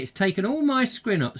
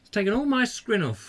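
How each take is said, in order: First: "scrin" said for skin; tongue slips, skin comes out "scrin"; "scrin" with an r slipped in. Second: "scrin" repeated on purpose; deliberate "scrin" for skin; scrin again. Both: Real, not acted. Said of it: "scrin off?".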